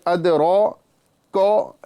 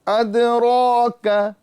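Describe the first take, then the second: First: The qaf sound is heavy and full. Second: The qaf sound is thin and light. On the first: The speaker calls it wrong. "इस तरह नहीं" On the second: The speaker calls it right. "काफ को बारीक करना है"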